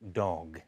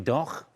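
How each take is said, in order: First: The final consonant is a soft G. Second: The final consonant is hard and harsh. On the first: The speaker calls it right. "we say dog with a, with a softer G" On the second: The speaker calls it wrong. "We don't say doch"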